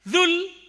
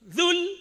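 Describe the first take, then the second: The two takes are said the same way.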